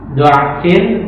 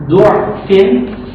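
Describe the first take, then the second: First: The first vowel is an open 'a' sound. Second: The first vowel is a rounded 'u' sound. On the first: "Jadi dengan fathah gitu" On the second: "Atau dengan dhamma"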